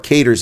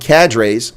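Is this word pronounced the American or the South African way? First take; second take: South African; American. First: The word has the South African pronunciation. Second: The word has the speaker's own American pronunciation.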